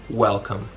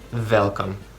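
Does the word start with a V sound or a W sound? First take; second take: W; V. First: The word begins with a W sound. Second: The word begins with a V sound. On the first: "instead of welcome, like a more like a U sound" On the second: "pronounce it as V, like welcome"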